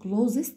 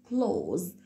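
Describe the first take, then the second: First: The word does not end with a plain z. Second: The word ends straight on a z sound. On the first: The speaker calls it wrong. "بتعمل فيها خطأ في النطق بتاعها" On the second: The speaker calls it right. "هنعتبر ان التي والاتش دول مش موجودين وهننطق الزد ساوند على طول"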